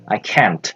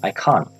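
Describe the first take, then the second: First: It is said in an American accent. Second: It is said in a British accent. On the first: "kalau kalian menggunakan American English ini agak belepotan" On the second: "kalau menggunakan British English kalian mengucapkannya dengan cara can't"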